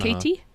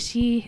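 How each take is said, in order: First: Said in an American-style accent with the T. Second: Said in an Irish Midlands accent. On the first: "for Americans, it's Katie" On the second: "my dad's from uh, the Midlands, and so he'd say"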